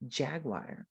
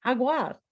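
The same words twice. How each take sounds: First: JAGUAR with a hard English j at the front; lower, softer English "jaguar", starting on j; English pronunciation. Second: JAGUAR said the Spanish way, breathy h sound first; home-language pronunciation. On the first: Shown as a demonstration. Teacher shows the English first sound, English pronunciation. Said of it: "in English, it's j". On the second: Acted. Student answers in home language, Spanish pronunciation. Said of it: "What is it in your home language?".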